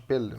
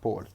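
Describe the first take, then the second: First: The vowel is an 'e' sound. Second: The vowel is an 'o' sound. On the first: The speaker calls it wrong. "ما نطقناهاش بيل" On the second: The speaker calls it right. "نطقناها بول"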